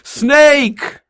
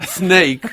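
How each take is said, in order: First: High, loud alarmed shriek; yelling snake. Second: Lighter echo of the shout, raised; just a touch of the yell; mild mock yell. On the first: Retold or imitated. Wife yelling from the backyard, high alarmed shriek. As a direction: shriek it like you just spotted a snake. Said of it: "And she yells". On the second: Recalling the wife's cry to the co-host, mild mock yell. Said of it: "she's never in seventeen years yelled".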